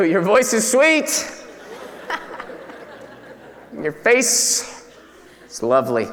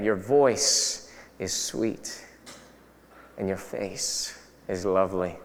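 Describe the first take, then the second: First: Slow, breaking into a laugh; husband's sweet words dissolving into laughter; laughing compliment. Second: Much lower and softer, slow and tender; a husband's soft, slow murmur to his wife. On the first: Husband's line, laughed through. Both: Pretend.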